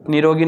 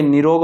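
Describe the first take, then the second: First: निरोगी ending in long "ee"; wrong form shown. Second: निरोग closing on hard "g"; correct form shown. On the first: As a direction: add "ee" at the end of निरोगी. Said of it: "निरोगी नहीं भाई". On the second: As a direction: end निरोग on g, no vowel. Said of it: "निरोग होता है". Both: Shown as a demonstration.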